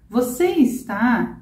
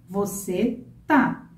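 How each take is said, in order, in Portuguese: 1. O verbo é falado por completo, com duas sílabas. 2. O verbo é encurtado para uma sílaba.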